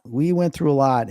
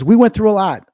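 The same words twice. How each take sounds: First: Said in the usual way. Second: Higher and louder, pressing went; emphatic. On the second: Real, not acted. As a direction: insist we went through a lot, up high. Repeats with emphasis.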